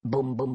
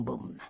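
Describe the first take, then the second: First: Said in the usual way. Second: The last "boum" dropped to a near-silent breath; fading boum. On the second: Acted. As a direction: let the final "boum" die away. Last gunshot fades away. (le dernier « boum » s'éteint dans un souffle)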